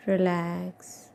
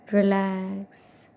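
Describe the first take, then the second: No difference in how they are said.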